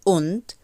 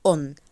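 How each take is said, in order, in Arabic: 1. تُنطق الكلمة كاملة مع دال في النهاية. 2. تُختصر الكلمة إلى on قصيرة. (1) "أنا مش بقول und" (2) "بقول on"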